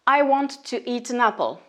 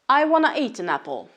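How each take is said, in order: First: Want to is said in full as two words. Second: Want to is reduced to one word, wanna.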